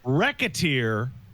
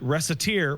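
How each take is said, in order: First: The name is said to sound like 'racketeer'. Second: The name is said just as it is spelled. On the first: "which makes sense because of racketeering" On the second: "which it is correctly pronounced by its spelling"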